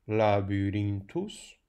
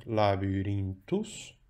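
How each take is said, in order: First: Labyrinthus drawn out, syllable by syllable; slow teacher reading of Latin. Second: Labyrinthus with the stress on rin, la-by-RIN-thus; teacher marking stress on rin. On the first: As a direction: read the inscription slowly for students. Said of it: "Vejam este grafito". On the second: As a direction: lean into rin so students hear it. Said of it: "O acento tónico cai em rim". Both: Shown as a demonstration.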